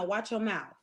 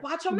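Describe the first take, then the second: First: It is said in a calm tone. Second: It is said in an aggressive tone.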